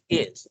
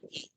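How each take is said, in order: First: The word ends with a clear s sound. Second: The word has no final s sound. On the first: The speaker calls it right. "it is pronounced as is" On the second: The speaker calls it wrong. "not e"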